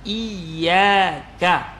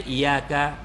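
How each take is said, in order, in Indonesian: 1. Bunyi y yang digandakan ditahan panjang. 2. Bunyi y pendek, tidak digandakan. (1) "kena sebut dengan jelas" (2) "Jangan baca iyyaka"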